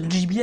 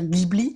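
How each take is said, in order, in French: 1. Ça se prononce à la japonaise. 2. Ça se prononce à la française. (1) "ça se prononce Ghibli à la japonaise" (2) "en France, on a tendance à dire Ghibli"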